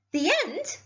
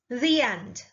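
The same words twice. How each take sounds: First: High, indignant echoed question. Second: Said in the usual way. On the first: A narrator's reading. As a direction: throw it back in disbelief.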